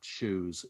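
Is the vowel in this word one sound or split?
one sound. The vowel is a single smooth sound. "there is just the one sound to that"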